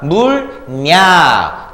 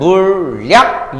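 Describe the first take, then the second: First: The second syllable starts with an n sound. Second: The second syllable starts with an l sound. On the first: "발음하면 물냐" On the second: "최종 발음은 물약 유음화로 끝나죠"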